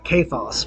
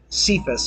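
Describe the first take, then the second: First: The name has its original Greek pronunciation. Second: The name has its everyday English pronunciation. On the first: This is the original form of the name. "would be the proper pronunciation of the Greek" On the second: This is what his friends call him. "his friends would call him Cephas"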